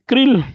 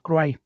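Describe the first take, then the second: First: The name ends with an L sound, like 'krill'. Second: The name ends in a vowel, like 'cry'. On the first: This is how people commonly call it. The speaker calls it wrong. "como se le llama" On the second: This is how it is really pronounced. The speaker calls it right. "realmente se pronuncia como cry"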